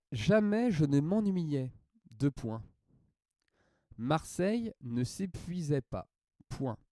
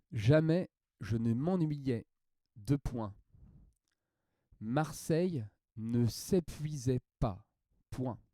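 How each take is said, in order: The two takes are said the same way.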